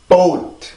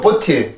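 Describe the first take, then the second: First: It is said the English way, one syllable. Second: It is said the Korean loanword way, bo-teu. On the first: The speaker calls it right. "이 발음으로 읽어줘야 돼요... 일 음절이고요" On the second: The speaker calls it wrong. "우리나라가 이 발음을 읽을 때 보트라고 읽어... 보트 자체는 틀립니다"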